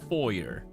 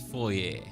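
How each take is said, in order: First: It is said with an English pronunciation. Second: It is said with a French Canadian pronunciation. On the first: "the English pronunciation is foyer" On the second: "The French Canadian version is foyer"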